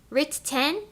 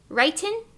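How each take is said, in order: First: The middle T is clearly pronounced. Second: The middle T is not clearly pronounced.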